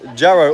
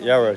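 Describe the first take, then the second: First: The name begins with a J sound. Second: The name begins with a Y sound. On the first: The speaker calls it wrong. "Or was it Yarrow?" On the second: The speaker calls it right. "It's spelled with a J, But you don't pronounce it"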